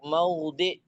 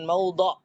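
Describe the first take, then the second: First: The vowel before the final consonant is i. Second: The vowel before the final consonant is a. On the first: The speaker calls it right. "yaitu maudhi'" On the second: The speaker calls it wrong. "bukan maudha'"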